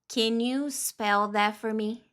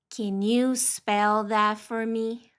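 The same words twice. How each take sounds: Both takes have the same delivery.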